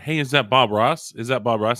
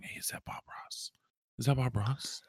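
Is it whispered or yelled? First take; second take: yelled; whispered. First: It is yelled out loudly. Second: It is whispered quietly.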